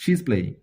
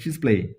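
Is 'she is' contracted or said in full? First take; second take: contracted; contracted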